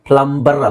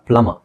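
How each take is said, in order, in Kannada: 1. ಮಧ್ಯದಲ್ಲಿ 'b' ಶಬ್ದ ಉಚ್ಚರಿಸಲಾಗುತ್ತದೆ. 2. ಮಧ್ಯದಲ್ಲಿ 'b' ಶಬ್ದ ಉಚ್ಚರಿಸಲಾಗುವುದಿಲ್ಲ. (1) "ಪ್ಲಂಬರ್ ಅಲ್ಲ" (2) "ಪ್ಲಮ ಅಂತ ಓದಿ"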